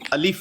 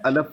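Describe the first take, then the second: First: The second syllable is pronounced 'lif'. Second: The second syllable is pronounced 'laf'. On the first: The speaker calls it right. "अलफ नहीं अलिफ है" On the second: The speaker calls it wrong. "कहता है अलफ लाम मीम"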